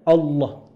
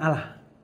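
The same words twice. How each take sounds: First: The L is thick and the vowel sounds like O. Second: The L is thin and the vowel is plain A. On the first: It is the proper way to say the divine name. The speaker calls it right. "Rada tebel L-nya ... ada O-nya walaupun tulisannya A ya, tapi bacanya Allah" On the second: It is the form used by another religion. The speaker calls it wrong. "Bukan Allah. Karena itu identik dengan penyebutan yakni agama tertentu"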